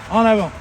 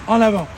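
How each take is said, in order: Both takes have the same delivery.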